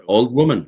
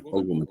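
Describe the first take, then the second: First: Loud call after her; calling out loudly down the path; shouting. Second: Said in the usual way. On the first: A narrator's reading. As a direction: shout it out the door. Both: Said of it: "she shouted".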